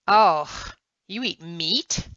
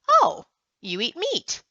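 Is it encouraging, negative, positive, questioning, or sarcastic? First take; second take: sarcastic; questioning. First: It is said with a mocking, sarcastic tone. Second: It is said as a questioning remark. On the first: The speaker mocks the listener for eating meat. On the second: The speaker is asking whether the listener eats meat. "Is it a question?"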